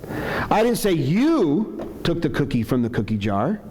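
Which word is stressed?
you. The word "you" carries the strongest stress. Someone else took it. "I'm saying maybe somebody else took it"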